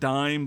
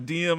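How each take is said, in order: First: It is said as one syllable, like dime. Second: It is said as two syllables, dee-em. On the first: The speaker calls it wrong. "I always pronounced it dime" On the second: The speaker calls it right. "is probably how you you pronounce it"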